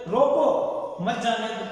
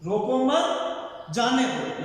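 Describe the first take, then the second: First: Slow, falling "روکو", pause, then "مت جانے دو" together; pause after روکو. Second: "روکو مت" as one rising group, short pause, then "جانے دو"; don't stop them: lift مت, break, let "جانے دو" fall; pause after مت. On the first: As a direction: stop them: break right after روکو, join مت to "جانے دو". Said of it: "لیکن اسی جملے کو آپ نے دوسرے". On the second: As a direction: comma read clearly after مت. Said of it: "کہ اس کو اب یہاں رکنا نہیں چاہیے". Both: Shown as a demonstration.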